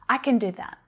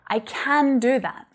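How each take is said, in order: First: 'Can' is unstressed and reduced to a schwa. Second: 'Can' is stressed with a full, open vowel. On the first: "the unstressed form is kun, using that schwa sound" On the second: "I'm really stressing the word can for emphasis"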